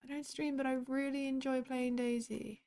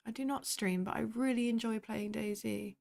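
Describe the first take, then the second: First: Higher, sweet cutesy reread. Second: Said in the usual way. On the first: Shown as a demonstration. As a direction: read it back like something adorable. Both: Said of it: "isn't that just cute?".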